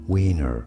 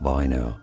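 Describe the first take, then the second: First: The name is said with English pronunciation. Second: The name is said with German pronunciation. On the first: "in English this name is pronounced as Wiener" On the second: "in German this is said as Weiner"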